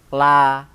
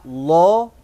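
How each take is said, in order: First: The L is light, with a clear open vowel. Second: The L is heavy, with a dark rounded vowel. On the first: "bisa dibaca tarkik la" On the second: "bisa dibaca lo tafkhim"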